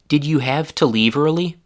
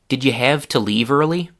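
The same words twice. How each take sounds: First: The word 'you' keeps its full oo vowel. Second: The word 'you' is reduced to 'ya'. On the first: "the one with one difference from the full form" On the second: "the you became ya"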